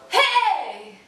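It is said as a strained, pressed shriek.

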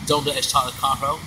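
The Spanish is spoken with a foreign accent. The speaker calls it wrong. "it started off with an accent"

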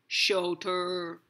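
The word is spoken in a low, deep voice. "You can say it in a deep voice"

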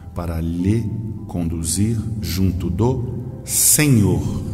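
Senhor is read with strong emphasis.

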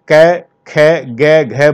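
Each syllable ends in an 'ai'-like vowel. This is how people in western Uttar Pradesh say it. The speaker calls it wrong. "पश्चिमी उत्तर प्रदेश में इसे कै खे गे घे बोलते हैं, गलत है"

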